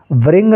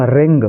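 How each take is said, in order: First: "व्रिंग" with a v sound before the R; faulty "व्रिंग", beginning vr-; wrongly voiced W. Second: "रिंग" with no w sound, starting on R; teacher's model "रिंग", opening straight on the r; silent W. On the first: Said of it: "व्रिंग नहीं पढ़ेंगे". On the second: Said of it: "इसको क्या पढ़ेंगे हम". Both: Shown as a demonstration.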